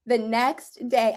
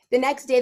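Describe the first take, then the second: First: Said in the usual way. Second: The next day, louder and higher with glee; thrilled retelling of the twist; excited. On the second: Real, not acted. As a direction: burst out with it like you can barely hold it in. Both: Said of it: "can't even say this without laughing".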